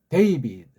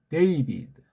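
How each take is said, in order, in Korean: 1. 첫 모음은 미끄러지는 'ay' 소리입니다. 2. 첫 모음은 미끄러지는 'ay' 소리입니다.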